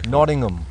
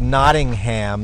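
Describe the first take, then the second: First: It is said in a British accent. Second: It is said in an American accent. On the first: "I'm going to try a British accent" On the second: "that'd be very American"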